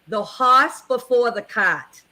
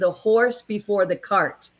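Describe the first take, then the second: First: It is said in a New England accent. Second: It is said in a plain accent.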